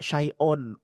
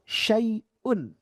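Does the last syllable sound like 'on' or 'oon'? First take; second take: on; oon. First: The last syllable has an open 'o' vowel. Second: The last syllable has a clear 'u' vowel. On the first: The speaker calls it wrong. "Kata orang Jawa ... On" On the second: The speaker calls it right. "Yang betul"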